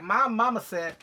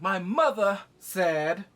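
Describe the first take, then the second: First: Put-on loud, higher mama's-boy voice; goofy, forceful mock insistence; Bobby Boucher. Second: Loud, slow and pompous; mock Jace declaration. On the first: Mocking the son as a mama's boy, goofy and loud. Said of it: "Okay, Bobby Boucher". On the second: Son invoking his mother to the council, loud mock declaration. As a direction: draw out each word forcefully. Mocking Jace's solemn declaration.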